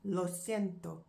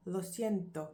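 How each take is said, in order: First: Lo siento slow, Spanish vowels. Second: Said in the usual way. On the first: Shown as a demonstration. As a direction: say Lo siento carefully. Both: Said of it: "I am sorry".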